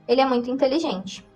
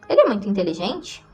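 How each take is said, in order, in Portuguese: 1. A voz termina mais baixa e grave. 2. A voz termina mais alta e fina. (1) "mais grave quando usou um ponto final" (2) "a voz fica mais aguda, fina, no final das frases interrogativas"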